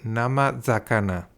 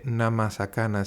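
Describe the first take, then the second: First: The second word begins with a Z sound. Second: The second word begins with an S sound. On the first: The speaker calls it right. "se dice nama zakana" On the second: The speaker calls it wrong. "no se dice nama sakana"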